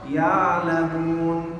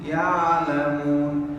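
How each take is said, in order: No difference in how they are said.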